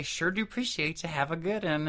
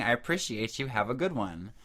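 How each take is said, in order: First: Higher, run-together Tennessee twang; Tennessee accent. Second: Said in the usual way. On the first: Retold or imitated. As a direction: mimic the locals' Tennessee accent. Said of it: "can't even say it like they do". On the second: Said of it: "He's like, "They're saying".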